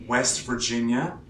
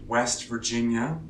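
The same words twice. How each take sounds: No difference in how they are said.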